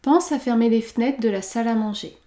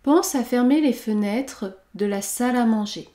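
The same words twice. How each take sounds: First: The first vowel of fenêtres is dropped. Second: The first vowel of fenêtres is pronounced.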